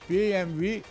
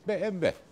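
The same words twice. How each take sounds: First: The letters are read with German letter names. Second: The letters are read with Turkish letter names. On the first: "Şimdi BMW bir Almancasıdır" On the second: "Türkçesi BMW"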